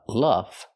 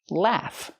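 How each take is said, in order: First: The vowel is a short uh, like cup. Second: The vowel is a short a, like cat. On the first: The speaker calls it wrong. "Not the short uh sound like cup and up" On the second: The speaker calls it right. "But the sound ah"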